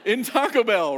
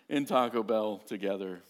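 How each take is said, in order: First: Louder and higher, pushing the words "in Taco Bell"; loud emphatic. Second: Said in the usual way. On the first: Real, not acted. A preacher tells the congregation, loud and high. Emphatic retelling of crying scene.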